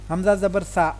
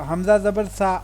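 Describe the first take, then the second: No difference in how they are said.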